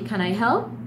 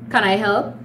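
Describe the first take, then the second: First: The voice sounds warm and friendly. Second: The voice sounds dry and flat. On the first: The person genuinely wants to help. The speaker calls it right. "it comes out as helpful" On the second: The person does not really want to help. The speaker calls it wrong. "a rough tone ... Like it's very dry, there's no smile in the voice"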